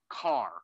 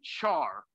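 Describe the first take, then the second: First: The word begins with a k sound. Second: The word begins with a ch sound. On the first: This matches the start of the full word character. "not car" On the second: This is the usual way people say it. "we pronounce that normally char"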